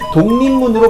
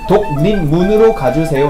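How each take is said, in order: First: The phrase is said quickly and smoothly. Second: The phrase is said slowly and carefully. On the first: "좀 더 빠르고 자연스럽게" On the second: "라고 하지 않고"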